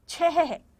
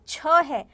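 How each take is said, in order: First: छह ending in an audible breathy ह; छह with breath. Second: छ said short, with no अह breath at the end; the wrong way: just छ, cut off clean; wrong plain छ. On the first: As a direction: add the अह breath after छ. (छह, अंत में हल्की ह की साँस) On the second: (बिना अह के सीधा छ) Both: Shown as a demonstration. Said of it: "छ नहीं बोल रहे हम उसको".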